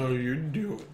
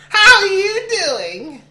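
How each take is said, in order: First: Low, soft seductive voice; sultry narrator. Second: Very high, loud, slow squeal; strained high voice. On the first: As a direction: purr the question low. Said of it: "this sultry, like, voice". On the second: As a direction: stretch it out high through a laugh. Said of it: "Don't, don't hurt yourself". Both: Pretend.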